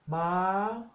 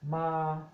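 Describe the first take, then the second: First: The word is said on a high tone. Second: The word is said on a flat tone. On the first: It means a horse. "high tone ma" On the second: It means to come. "flat tone means to come"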